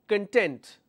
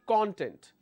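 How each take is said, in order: First: The stress is on the second syllable. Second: The stress is on the first syllable. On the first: It means being happy or satisfied. "when I'm stressing and focusing on the second syllable" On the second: It means the index or ingredients of something. "when I stress on the first one, my pronunciation should be content"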